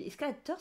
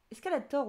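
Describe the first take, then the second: First: "Escalator" said with a final -teur; nonexistent French form. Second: "Escalator" ending in an open -tor; correct final syllable. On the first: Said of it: "ça n'existe pas". (« Escalator » prononcé « escalateur ») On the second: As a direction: say "Escalator" with an O sound in the last syllable. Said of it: "on dit". (« Escalator » prononcé avec -tor final) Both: Shown as a demonstration.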